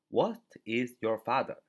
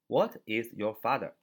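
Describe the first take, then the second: No difference in how they are said.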